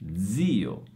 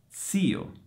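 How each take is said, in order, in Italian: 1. La z è sonora, come dz. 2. La z è sorda, come ts. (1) "io le ho pronunciate con la Z sonora" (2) "pronunciate con la Z sorda"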